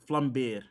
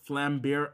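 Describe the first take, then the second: First: The name is said with a non-American pronunciation. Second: The name is said with an American pronunciation. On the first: The speaker calls it right. "I should say it the way we always... That's how it's supposed to be pronounced" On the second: The speaker calls it wrong. "Why am I saying it in an American way?"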